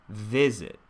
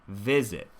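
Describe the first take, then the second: No difference in how they are said.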